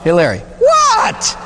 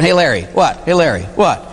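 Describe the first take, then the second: First: Hey, Larry, what? pitched way up and drawn out slowly; high mock call. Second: Said in the usual way. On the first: To the priest, calling his name for no reason, high and slow. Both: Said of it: "It's like looking at me and saying".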